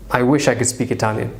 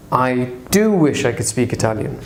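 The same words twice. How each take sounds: First: Said in the usual way. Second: "do" leaned on before "wish"; stress on do. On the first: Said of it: "And that's fine". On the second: Shown as a demonstration. Teacher demonstrating emphatic "do", stressing it. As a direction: give "do" a firm push. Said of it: "to emphasize".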